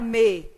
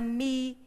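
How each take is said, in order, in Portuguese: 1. A vogal é pronunciada como 'e'. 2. A vogal é pronunciada como 'i'. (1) "Ninguém fala me" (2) "a gente fala mi"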